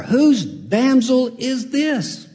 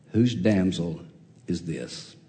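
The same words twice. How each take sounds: First: Drawn-out wondering question, a touch higher; lightly voiced admiring Boaz; smitten Boaz, slow. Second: Low, soft, trailing question; quiet awed Boaz; hushed wonder. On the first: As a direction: let Boaz marvel at her slowly. Preacher repeats Boaz's line. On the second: Acted. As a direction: say it almost to yourself, falling away. Preacher repeats line hushed.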